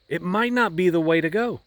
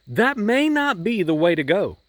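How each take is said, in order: First: "not" held long and weighted; stress on not. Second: "may" lifted and stretched; stress on may. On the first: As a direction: press on "not" to make it firm. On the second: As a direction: lean on "may" as a warning. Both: Shown as a demonstration.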